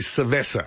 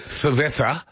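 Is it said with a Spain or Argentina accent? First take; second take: Argentina; Spain. First: It is said with an Argentinian accent, using s. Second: It is said with a Spain accent, using th.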